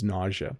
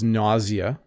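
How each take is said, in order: First: The word is said with a North American pronunciation. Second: The word is said with a British pronunciation. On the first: "the North American pronunciation is nausea" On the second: "the British pronunciation is nausea"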